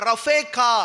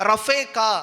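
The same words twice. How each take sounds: No difference in how they are said.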